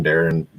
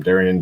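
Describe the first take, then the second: First: Darren in two syllables; alternate name pronunciation. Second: Darian with an extra vowel before the final n; alternate name pronunciation. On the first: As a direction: say Darren with no i before the ending. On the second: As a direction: say Darian in three syllables. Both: Shown as a demonstration. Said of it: "however you wanna pronounce them".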